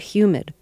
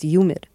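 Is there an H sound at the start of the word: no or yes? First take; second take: yes; no. First: The word starts with an audible H sound. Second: The word starts with a Y sound, no H. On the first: "when you first gave us the weather report" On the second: "when you did it New York style"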